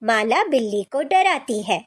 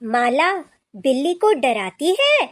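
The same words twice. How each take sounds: First: The voice falls at the end like a statement. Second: The voice rises at the end like a question. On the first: It states that the girl scares the cat. "इस वाक्य के अंत में पूर्ण विराम लगाने से" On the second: It asks whether the girl scares the cat. "प्रश्न चिन्ह के साथ"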